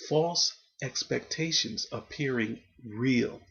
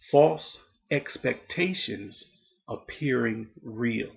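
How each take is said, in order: First: Said in the usual way. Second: Slow, weighty acronym read, each word set apart; spelled out slowly. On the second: Shown as a demonstration. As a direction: lay out "false expectations appearing real" slowly with pauses. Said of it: "the letters F E A R is".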